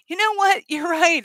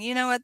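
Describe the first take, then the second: First: Laughing agreement. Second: Said in the usual way. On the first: Pretend. Friend laughingly agrees, shared laugh.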